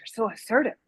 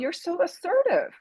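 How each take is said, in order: First: It is said in a cool, disapproving tone. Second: It is said in a warm, admiring tone. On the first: The person is seen as not nice. "that could be a negative thing" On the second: Being assertive is praised as a good quality. "that could be a positive thing because of, again, their tone of voice"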